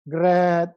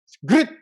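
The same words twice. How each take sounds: First: Grit said softly, the vowel opened toward grat; a weak grit, no bite on the r or the t. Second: Grit with a hard gr and a clipped t, louder; punchy grit. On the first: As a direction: grit thrown away, barely landed. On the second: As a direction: bite into grit, short and strong. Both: Shown as a demonstration. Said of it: "The way you sound, you already know".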